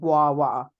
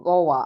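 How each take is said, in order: First: It is said 'gwava' with a 'w' sound. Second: It is said like 'Goa' with no 'w' sound. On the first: It names the fruit. The speaker calls it right. "like a W A" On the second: It sounds like the name of a vacation spot. The speaker calls it wrong. "did you say Goa?"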